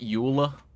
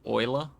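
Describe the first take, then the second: First: The name is said rhyming with 'ruler'. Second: The name is said not rhyming with 'ruler'. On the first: "I called it Euler" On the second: "which is just wild to me. Um, because that is not how it's spelt"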